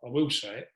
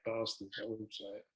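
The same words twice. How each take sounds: First: Said in the usual way. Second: Muttered quietly under breath; half-swallowed, quiet curse. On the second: Real, not acted. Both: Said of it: "'Cause I'm saying it under my breath".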